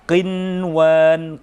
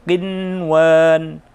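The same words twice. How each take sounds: Both takes have the same delivery.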